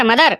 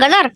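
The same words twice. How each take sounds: First: मदर said with a clear m, correcting; corrected to madar. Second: गदर said with a g, mistaking mother; wrong word gadar. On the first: Shown as a demonstration. Son correcting the father, says मदर with a firm m. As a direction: fixes it to मदर, starting with m. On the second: Pretend. Father guessing the English word, says गदर with a g. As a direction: says गदर instead of मदर, puzzled. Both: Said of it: "गदर नाही, मदर".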